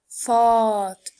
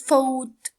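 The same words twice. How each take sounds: First: The vowel matches the vowel in fall. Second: The vowel differs from the vowel in fall. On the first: The speaker calls it right. "this is fought, like fall" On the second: The speaker calls it wrong. "This is not fought"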